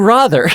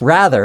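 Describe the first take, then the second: First: It is said in a put-on English-like accent. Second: It is said in a plain American accent. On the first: "[name] from Green Day English accent" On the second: "rather is how we all pronounce it"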